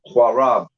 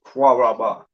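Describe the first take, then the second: First: The word ends on the consonant b. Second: The word ends with an extra final vowel. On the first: The speaker calls it right. "You pronounce it Quarab" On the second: The speaker calls it wrong. "You don't pronounce it Quaraba"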